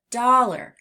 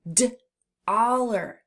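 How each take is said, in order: First: Said in the usual way. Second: D-oller split after the D; segmented first sound. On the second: Shown as a demonstration. Teacher lets children hear the first sound, segmented. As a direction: detach D, then say oller. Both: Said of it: "do you hear D in the beginning".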